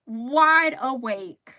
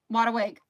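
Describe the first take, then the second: First: Drawn out. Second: Said in the usual way. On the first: Shown as a demonstration. Complaining she can't sleep.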